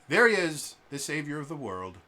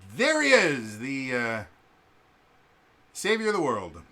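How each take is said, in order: First: It is said flatly, without sarcasm. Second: It is said with a sarcastic tone.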